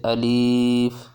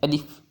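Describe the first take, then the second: First: The word is drawn out long. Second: The word is clipped very short. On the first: "ना इसको लंबा पढ़ना है जैसे अलिफ" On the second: "ना ही बहुत शार्ट पढ़ना है अलिफ"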